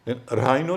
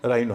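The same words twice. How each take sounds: First: An h sound is heard after the r. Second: No h sound is heard after the r. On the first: The speaker calls it wrong. "राइनो नहीं है" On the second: The speaker calls it right. "राइनो है, वहां भी एच silent है"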